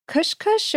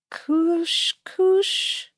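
First: "kush kush" with a short vowel, as in "push"; uncertain pronunciation. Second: "kush kush" with long oo vowels, drawn out and higher; alternative pronunciation. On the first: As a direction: try "kush kush" with short, lax u sounds. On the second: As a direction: try "kush kush" as "koosh koosh", pitched up. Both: Shown as a demonstration. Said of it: "not sure how to pronounce it".

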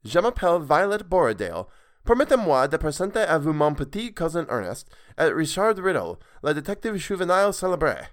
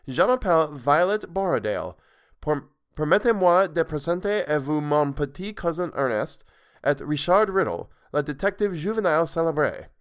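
First: Higher, louder, smoother French retake; second try at the girl's French introduction. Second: Higher, louder careful French introduction; proud formal French with an English accent; girl formally introducing her friends in French. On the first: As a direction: read the French introduction again more fluently. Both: Acted. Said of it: "that wasn't even Violet's voice".

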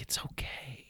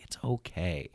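First: Soft whisper, breathy and gentle; whispered reassurance. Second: Soft, calm and a bit quieter; gentle reassurance. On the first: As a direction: imitate her hushed "it's okay". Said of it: "just even the way that you said that". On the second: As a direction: say it like a soothing friend. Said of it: "You know, like". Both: Retold or imitated.

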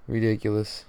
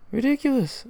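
First: Said in the usual way. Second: Ridiculous squeaked much higher, falling at the end; squeaky disbelief. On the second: Real, not acted. Fan repeating his reaction to the loss, squeaky Ridiculous. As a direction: shriek Ridiculous in exasperated disbelief.

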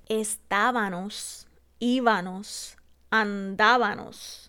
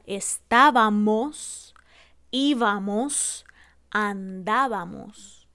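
First: Estábanos, íbanos, andábanos, slow with n; estábanos con n, lento. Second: Estábamos, íbamos, andábamos, slow with clear m; estábamos con m, lento; correct m. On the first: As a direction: draw out estábanos with an n. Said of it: "cambiamos la M por la N". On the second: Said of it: "en vez de decir la correcta". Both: Shown as a demonstration.

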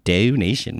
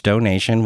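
First: Said in the usual way. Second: Donation said with a Philly accent. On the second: Real, not acted. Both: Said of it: "my Philly accent came out".

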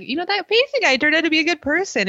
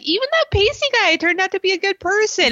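First: High, fast mock of AJ. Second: High, prissy mock of AJ. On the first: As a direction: rattle it off high as a smug AJ. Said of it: "A J's like". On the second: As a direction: pitch way up to mock him. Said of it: "And he's like".

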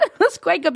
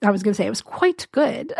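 First: Laughing, higher attempt at an English accent; a failed, giggly stab at an English accent; mock English accent; bad English accent. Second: Said in the usual way. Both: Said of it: "but I can't do an English accent".

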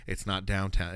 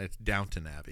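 First: "Downtown" with a clear full "town"; mistaken name Downtown. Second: "Downton" as DOWN-tun, softer; corrected name Downton. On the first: Retelling a TV joke about the name, "Downtown" with full "town". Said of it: "there was a joke about it". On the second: Retelling a TV joke about the name, "Downton" said as DOWN-tun. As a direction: say "Downton" with the last syllable shrunk to "tun". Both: Retold or imitated.

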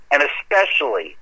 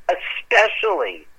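First: Said in the usual way. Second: Especially drawn out slowly and pitched up; stressed repeat. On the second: Shown as a demonstration. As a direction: lean hard on especially, stretching it. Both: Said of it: "repeats the word to stress it".

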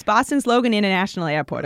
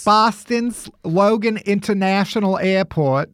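First: Dropped-r Boston accent, Logan Airport. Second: Put-on Kennedy-style Boston accent; a lightly done Boston accent. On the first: Shown as a demonstration. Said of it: "you gotta park your case". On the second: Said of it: "Every time I try a Boston accent".

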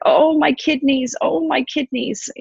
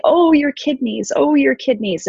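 First: High moaning cry of pain; mock wailing goddess. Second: High, mirroring moan of sympathy; echoing her wail. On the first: Ereshkigal screaming to the little beings in pain, high wail. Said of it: "is screaming". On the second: Retold or imitated. Little beings mirroring Ereshkigal's pain, high empathetic echo. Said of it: "these little beings say".

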